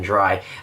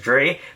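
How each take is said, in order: First: The word rhymes with 'eye'. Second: The word rhymes with 'day'. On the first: The speaker calls it right. "this card is definitely Cyber Dragon Dry" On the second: The speaker calls it wrong. "I've been pronouncing this card as Dre"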